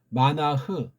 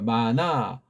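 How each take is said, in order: First: The final h sound is clearly pronounced. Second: The final h is silent; the vowel is lengthened. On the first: The speaker calls it right. "원래 흐를 발음해야 되는데" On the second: The speaker calls it wrong. "서양 애들은 이걸 묵음을 처리해요"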